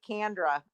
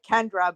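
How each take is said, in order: First: CANDRA with an a as in can; imitated Southern a in "Candra"; Southern pronunciation. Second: KENDRA with an e as in Ken; local pronunciation. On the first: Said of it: "with the Southern accent, it sounds like Candra". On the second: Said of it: "'Cause here it's like Kendra". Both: Shown as a demonstration.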